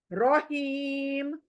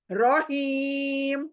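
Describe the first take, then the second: First: रहीम with a thin Urdu R, said slowly; Urdu-style Raheem. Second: रहीम very slow, with a heavy rounded Arabic R, ro-heem. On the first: Teacher shows the wrong thin रहीम. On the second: Teacher models the correct heavy रहीम. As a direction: stretch रहीम with a full-mouth R. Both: Shown as a demonstration. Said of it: "रहीम नहीं बोलेंगे".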